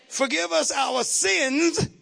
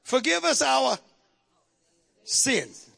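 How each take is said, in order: First: Slow, drawn-out forgive us our sins; slow stressed reading. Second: Said in the usual way. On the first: Shown as a demonstration. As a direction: lean on each word slowly.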